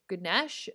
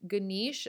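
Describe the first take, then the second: First: "Ganesh" said guh-NESH, short e; short "eh" in "Ganesh", no final a; variant pronunciation. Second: "Ganesh" said guh-NEESH, long ee; variant pronunciation. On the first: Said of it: "I've heard it pronounced so many different ways". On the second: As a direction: stress a long "ee" in "Ganesh", no final a. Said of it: "pronounce his name differently". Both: Shown as a demonstration.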